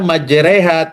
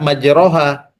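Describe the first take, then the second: First: The vowel after the r sounds like e. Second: The vowel after the r sounds like o. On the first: The speaker calls it right. "Nabi membaca majreha" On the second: The speaker calls it wrong. "tidak majroha"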